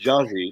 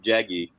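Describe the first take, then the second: First: The G is pronounced soft, like a J. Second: The G is pronounced hard, as in go. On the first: The speaker calls it right. "her first name is pronounced Jaji ... The G is soft" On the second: The speaker calls it wrong. "not Jaggy"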